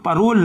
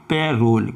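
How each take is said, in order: First: The first syllable is a short 'pa' sound. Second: The first syllable is an open 'pair' sound. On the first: The speaker calls it wrong. "परोल नहीं" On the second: The speaker calls it right. "इसको पढ़ेंगे पैरोल"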